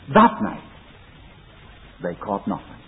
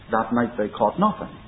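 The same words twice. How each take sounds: First: The words 'That night' are strongly emphasized. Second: The words 'That night' carry no special emphasis. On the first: The speaker calls it right. "You read it this way" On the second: The speaker calls it wrong. "it's wrong to read it"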